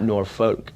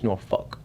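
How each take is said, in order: First: The ending sounds like the word folk. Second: The ending sounds like the word fuck. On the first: The speaker calls it wrong. "people see it, they'll say Norfolk, but it's not Norfolk" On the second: The speaker calls it right. "it's Norfolk, like the F U C K"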